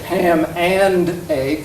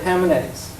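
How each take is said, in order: First: Every sound of 'and' is fully pronounced. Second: 'And' shrinks to a syllabic nasal sound. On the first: "every phone segment is pronounced canonically" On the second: "the and is reduced to just a syllabic nasal"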